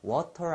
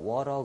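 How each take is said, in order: First: The t is pronounced as a clear t. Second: The t is a soft, r-like flap. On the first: "water 안 그러고" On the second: "water 그러잖아요"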